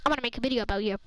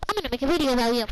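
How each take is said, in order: First: Said in the usual way. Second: Louder mock threat. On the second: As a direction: repeat the threat louder, warning her. Threatening teacher, repeated line.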